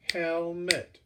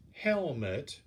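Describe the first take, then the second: First: "helmet" in two separate beats, hel, met; split into syllables. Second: Said in the usual way. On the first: Shown as a demonstration. Teacher counting syllables for class, "helmet" split distinctly as hel-met. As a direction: sound out "helmet" syllable by syllable, raised pitch. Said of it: "That's two". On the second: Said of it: "Last sentence".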